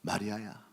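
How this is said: The name is called softly and tenderly. The speaker calls it right. "정말로 부드럽게 다가오는 주님의 음성"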